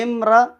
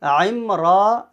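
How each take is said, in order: First: "امرا" with no ain and a short ending; louder, higher, brief "امرا"; plain short imra. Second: "عمرا" from the throat with a long raa; slower, full "عمرا"; clear ain. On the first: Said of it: "یہ عورت کو کہتے ہیں". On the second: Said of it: "یہ نام ہے". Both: Shown as a demonstration.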